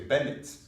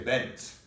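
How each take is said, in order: First: The final vowel is kept before the ending. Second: The final vowel is dropped before the ending. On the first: The speaker calls it right. "we say Bennett's" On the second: The speaker calls it wrong. "we don't say Bennett's"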